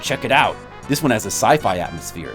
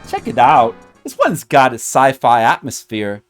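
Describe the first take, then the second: First: It is not said in the character's voice. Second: It is said in the character's put-on voice.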